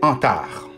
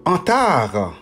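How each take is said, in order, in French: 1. Le nom se termine par un son 'ar'. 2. Le nom se termine par un son 'ar'.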